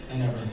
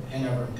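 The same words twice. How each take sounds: The two takes are said the same way.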